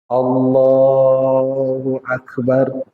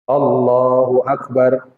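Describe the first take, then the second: First: The phrase is slowly drawn out and lengthened. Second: The phrase is said short and quick. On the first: The phrase lasts through the whole movement. The speaker calls it right. "dipanjangkan sampai dia posisi ruku" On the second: The phrase does not last through the movement. The speaker calls it wrong.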